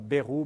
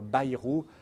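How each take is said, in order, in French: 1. Le nom se dit d'une façon non béarnaise. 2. Le nom se dit à la façon béarnaise. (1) "On ne dit pas Bayrou" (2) "les Béarnais nous disent bien qu'il faut dire Bayrou"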